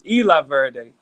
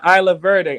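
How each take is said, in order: First: The name is said with a Spanish pronunciation. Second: The name is said with an English pronunciation. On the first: The speaker calls it right. "It's Spanish" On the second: The speaker calls it wrong. "I'm saying it wrong"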